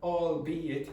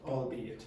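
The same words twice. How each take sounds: First: The word is said slowly and deliberately. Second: The word is said quickly in one run. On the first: "you say it albeit" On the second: "but quickly"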